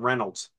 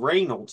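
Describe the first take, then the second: First: The first syllable is not said as 'ray'. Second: The first syllable is said as 'ray'. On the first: This is the pronunciation the family always used. The speaker calls it wrong. "not Reynolds" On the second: This is the supposed true pronunciation of the name. The speaker calls it right. "our last name is actually Reynolds ... It's R-E-Y, Ray"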